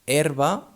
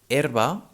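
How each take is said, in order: Both takes have the same delivery.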